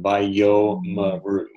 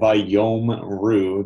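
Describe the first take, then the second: First: The word is said in four syllables. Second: The word is said in three syllables. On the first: The speaker calls it right. "one, two, three, four syllables" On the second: The speaker calls it wrong. "instead of"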